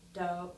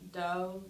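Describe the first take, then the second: No difference in how they are said.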